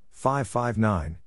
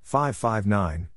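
The two takes are said the same way.

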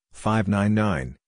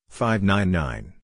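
The two takes are said the same way.

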